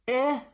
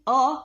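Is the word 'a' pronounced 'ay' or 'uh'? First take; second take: ay; uh. First: The vowel is a full, long 'ay' sound. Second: The vowel is a short, weak 'uh' sound. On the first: The speaker calls it wrong. "ए नहीं बोलना है" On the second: The speaker calls it right. "इसको हम अ बोलते हैं"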